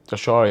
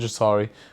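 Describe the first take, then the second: First: The middle consonant is a 'sh' sound. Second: The middle consonant is an 's' sound. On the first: The speaker calls it right. "I've got to say it like that" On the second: The speaker calls it wrong. "not Jasari"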